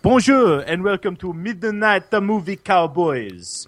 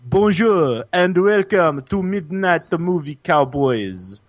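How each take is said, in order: First: Put-on higher, sing-song botched French accent; French accent sounding Italian. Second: Put-on French accent. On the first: Host greets listeners, French accent that slips into Italian. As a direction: aim for French, come out Italian. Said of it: "It's Italian, you fat wop". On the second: Host restarts the show opening, put-on French accent. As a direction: start over in a showy mock French accent.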